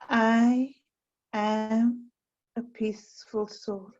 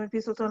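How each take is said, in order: First: The phrase is spoken very slowly. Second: The phrase is spoken quickly. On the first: The thought is dwelt on for its quality. The speaker calls it right. "I've said it very slowly" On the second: The thought is repeated for quantity. The speaker calls it wrong. "Not I'm a peaceful soul"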